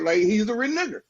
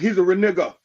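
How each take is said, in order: First: The last word ends with an 'er' sound. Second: The last word ends with an 'a' sound. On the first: The speaker calls it wrong. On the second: The speaker calls it right.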